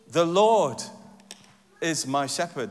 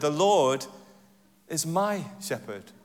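First: The stress is on "Lord". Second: The stress is on "is".

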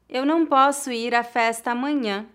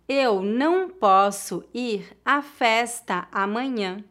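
First: The sentence is spoken at natural speed. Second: The sentence is spoken slowly. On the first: "outra vez mais naturalmente" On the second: "uma vez mais devagar"

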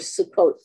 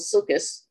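First: The word is said the modern Israeli way. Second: The word is said in a non-Israeli way.

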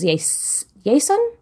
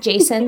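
First: The name is pronounced with Spanish sounds. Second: The name is pronounced with English sounds. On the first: "A Spanish version of Jason" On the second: "kind of like Jason"

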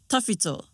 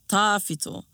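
First: All the vowels are said short. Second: One vowel is drawn out long. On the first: The speaker calls it right. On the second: The speaker calls it wrong.

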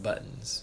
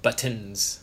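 First: The middle T is softened and rounded off. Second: The middle T is crisp and fully released.

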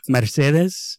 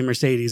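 First: The name is said with a Spanish accent. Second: The name is said with an American accent. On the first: This is how the residents say the name. "I'm gonna try and do a Spanish accent" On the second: This is how the speaker says the name. "I say Mercedes"

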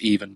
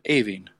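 First: The name sounds like the English word even. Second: The name does not sound like the word even. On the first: This is how the spelling reads phonetically in Irish. "If you were reading it phonetically in the Irish language, it would be even" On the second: This is how people there actually say the name. "but us being us, we're pronouncing it Aoiveann"

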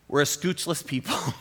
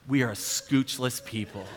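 First: It is said in a light, casual tone. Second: It is said in a grave, serious tone.

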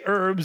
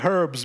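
First: Said the American way, with a silent H. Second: Said the British way, with the H pronounced.

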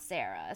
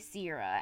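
First: The name has two syllables, like Sarah. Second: The name has three syllables, like Sierra. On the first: The speaker calls it wrong. "and not Sarah" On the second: The speaker calls it right. "apparently you say Sierra"

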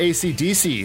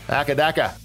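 First: The name is said in a plain accent. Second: The name is said in an Australian accent.

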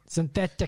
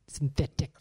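First: The word is said louder, almost shouted. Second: The word is said at normal volume.

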